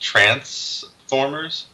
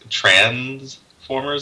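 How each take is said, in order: First: A Southern accent, with a hissing s sound. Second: A northern accent, with a buzzing z sound.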